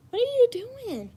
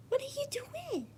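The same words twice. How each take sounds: First: Much higher "What are you doing?" aloud; high call to cat. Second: "What are you doing?" whispered, much softer. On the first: Calling to the cat. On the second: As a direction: whisper it so the cat won't notice. Whispering to the cat. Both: Real, not acted.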